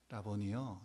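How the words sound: It is said quietly and calmly.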